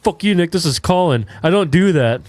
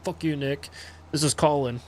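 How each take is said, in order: First: Higher, louder mock outburst; retold angry yell. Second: Quiet retelling. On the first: Classmate caught out yelling at Nick over text. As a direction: bark it back like an offended kid caught out. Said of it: "all of a sudden he goes". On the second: Retold or imitated. Retelling the classmate's text to Nick, softly. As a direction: toss it off under the breath. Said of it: "he was like".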